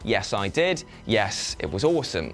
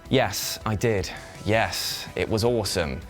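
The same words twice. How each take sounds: First: It is read in a plain, sincere tone. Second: It is read in a belittling, dismissive tone. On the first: The praise is genuine. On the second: The praise is condescending and belittling.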